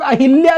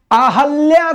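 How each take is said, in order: First: अहिल्या said a-hil-ya; i vowel after h in अहिल्या; incorrect hi form. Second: अहल्या said slowly as a-hal-ya; a vowel after h in अहल्या, high and slow; correct ha form. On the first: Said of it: "लोग अहिल्या लिखते हैं". (अहिल्या में हि, छोटी इ) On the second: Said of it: "अहल्या सही शब्द है". (अहल्या में ह पर अ) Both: Shown as a demonstration.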